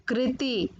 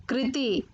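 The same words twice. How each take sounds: The two takes are said the same way.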